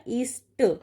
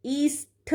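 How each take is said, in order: First: ईष्ट ending in a dry ṭ; correct unaspirated ending. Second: ईष्ट stretched, with a puffed ṭh; wrong aspirated ending. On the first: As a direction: say ईष्ट as eesṭa, without aspiration. (ईष्ट के अंत में ट की ध्वनि) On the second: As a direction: say ईष्ट as eesṭha. (ईष्ट के अंत में ठ की ध्वनि) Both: Shown as a demonstration. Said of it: "नहीं होता".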